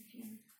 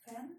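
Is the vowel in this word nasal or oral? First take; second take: nasal; oral. First: The vowel is nasal, with no n sound after. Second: The vowel is oral, followed by an n sound. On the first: The speaker calls it wrong. "а не «fin»" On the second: The speaker calls it right. "а последняя строчка «L'ardoise fin»"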